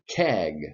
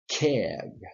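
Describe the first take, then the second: First: It is said in a general, non-southern accent. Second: It is said in a southern accent.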